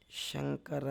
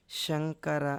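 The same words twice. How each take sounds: First: శంకర said softer, with sh set against the ష of కష్టము; contrasting "sha" demo. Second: శంకర with a soft palatal sh at the front; front "sha" sound. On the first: Teacher contrasting sounds for students, శంకర said softly. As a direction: softly repeat శంకర to show its sh. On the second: Teacher contrasting sounds for students, శంకర with a front sh. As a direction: say శంకర as "śankara", tongue forward. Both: Shown as a demonstration. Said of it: "చాలా తేడా ఉంది".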